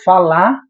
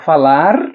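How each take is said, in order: First: The final r sound is dropped. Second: The final r sound is pronounced. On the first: This is the informal spoken register, which rhymes with Ceará. "aí eu rimaria com a palavra Ceará" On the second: This is the formal register, which does not rhyme with Ceará. "não rimaria perfeitamente, não é o mesmo som de Ceará"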